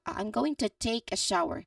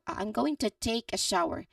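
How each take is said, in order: First: Every sound of going to is said slowly. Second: The same.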